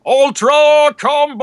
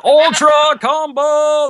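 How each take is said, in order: First: Huge, slow, high announcer shout; fighting game announcer. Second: Booming drawn-out announcer call; fighting game announcer. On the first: Shown as a demonstration. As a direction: bellow it like a Killer Instinct announcer. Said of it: "Can you do that again?". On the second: Retold or imitated. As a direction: hype it up like an arena announcer. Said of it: "that voice, that was him".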